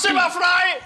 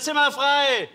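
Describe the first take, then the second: First: The phrase is said clearly and loudly. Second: The phrase is mumbled and hard to understand.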